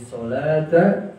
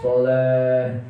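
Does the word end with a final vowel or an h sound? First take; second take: final vowel; h sound. First: The word ends with a t and a vowel. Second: The word ends with a silent h sound. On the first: The reading continues past this word. "Kalau berhenti di sholata" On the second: The reader stops on this word. "Ketika dimatikan menjadi huruf H"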